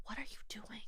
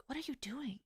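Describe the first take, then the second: First: Hushed shocked whisper. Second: Unvoiced shocked whisper. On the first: Retold or imitated. Whispering to her friend during the family argument. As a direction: breathe the question under your breath. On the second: Whispering to her friend, shocked at her talking back. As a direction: breathe it out in alarm, no voice. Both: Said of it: "I was like".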